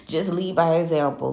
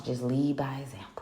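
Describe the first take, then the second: First: Said in the usual way. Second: "Just lead by example" breathed as a soft secret whisper; whispered "Just lead by example" like sharing the secret sauce. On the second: Shown as a demonstration. Advice repeated as a whisper.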